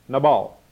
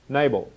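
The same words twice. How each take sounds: First: Nabal said as nuh-BAHL; Hebrew pronunciation. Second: Nabal said as NAY-bul; Anglicised pronunciation. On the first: Preacher quizzing the congregation, Nabal as nuh-BAHL. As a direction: stress the second syllable of Nabal, with an open AH. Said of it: "is the Hebrew word nabal". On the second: Preacher quizzing the congregation, Nabal as NAY-bul. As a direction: stress the first syllable of Nabal, with a long A. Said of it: "trying to get your accent right". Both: Shown as a demonstration.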